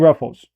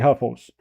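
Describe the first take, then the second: First: The word begins with an R sound. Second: The word begins with an H sound. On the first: "It's called Ruffles" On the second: "like we say, Huffles. That's how we pronounce it"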